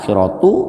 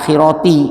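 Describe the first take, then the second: First: The word ends with a u vowel. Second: The word ends with an i vowel. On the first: The speaker calls it wrong. "tidak dibaca akhiratu" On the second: The speaker calls it right. "Makanya dibaca akhirati"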